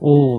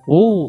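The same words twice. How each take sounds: First: It is short and sighed out. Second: It is drawn out with a cracking voice. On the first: A leaked, sigh-like reaction. "短めの、なんか王っていうため息" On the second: A very great amazement. "壊れるような、王だったらもうね、なんかすごく大きな簡単を意味する"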